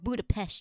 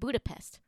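First: The word is said an unusual way. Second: The word is said the familiar way. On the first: This is how a character says it. "she likes to say" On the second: This is the usual way people say it. "we've been saying it wrong our whole lives"

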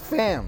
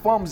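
First: The vowel sounds like the one in 'cat'. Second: The vowel sounds like the one in 'cup'. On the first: The speaker calls it right. "it's Fams" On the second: The speaker calls it wrong. "why you say Fums? It's not Fums"

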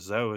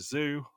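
First: Zoo is said with a French pronunciation. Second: Zoo is said with an English pronunciation.

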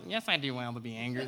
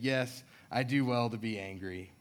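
First: It is said in a silly, childish put-on voice. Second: It is read in a plain, normal voice.

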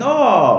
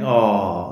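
First: It sounds happy and delighted. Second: It sounds sad and sympathetic.

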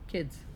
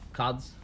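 First: The vowel is plain, without the New Zealand shift. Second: The vowel is shifted, as in a New Zealand accent.

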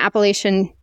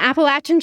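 First: The word has the northern pronunciation. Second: The word has the southern pronunciation. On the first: The speaker calls it wrong. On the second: The speaker calls it right.

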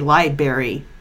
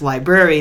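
First: The word is said with only one R sound. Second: The word is said with both R sounds. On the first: The speaker calls it wrong. "I've had people that have worked in libraries that say" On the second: The speaker calls it right. "I know it's library. There are two R's"

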